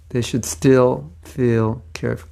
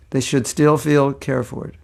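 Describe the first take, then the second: First: Slow, separated "should still feel cared"; slowed tongue-twister attempt; careful enunciation. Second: Said in the usual way. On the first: Shown as a demonstration. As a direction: pick through "still feel cared" word by word. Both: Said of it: "tongue twister".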